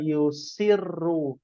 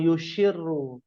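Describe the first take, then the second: First: The consonant after 'yu' is a plain s. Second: The consonant after 'yu' is an sh. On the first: The speaker calls it right. "Ma yusirru" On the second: The speaker calls it wrong. "bukan yushirru ya"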